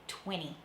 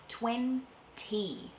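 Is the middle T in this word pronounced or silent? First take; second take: silent; pronounced. First: The middle T sound is dropped entirely. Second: The middle T sound is clearly pronounced.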